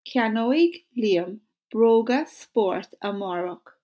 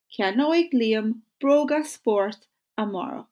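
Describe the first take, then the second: First: Ceannoig Liam broga sport amárach said slowly and evenly; slow model sentence. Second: Said in the usual way. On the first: Shown as a demonstration. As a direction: lead the class at a slow pace. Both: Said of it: "So say it with me".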